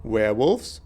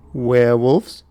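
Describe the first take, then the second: First: Said in the usual way. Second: Louder rising shout of werewolves?; loud disbelief. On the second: Acted. Realizing the attackers are werewolves, loud disbelief. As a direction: blurt werewolves? out loud in shock. Repeated word, second shouted.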